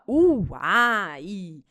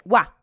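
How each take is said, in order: First: The vowel sounds are said separately. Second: The vowel sounds are joined into one. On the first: The speaker calls it wrong. "você não fala uai. Não, não é separadinho" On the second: The speaker calls it right. "é uá, uá"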